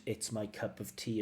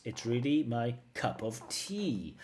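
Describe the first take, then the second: First: Said in the usual way. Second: "cup of tea" leaned on slowly and heavily; overstressed idiom. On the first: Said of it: "as a fixed expression". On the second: Retold or imitated. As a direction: mimic her forced emphasis on "cup of tea". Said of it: "extra unnatural emphasis on cup of tea".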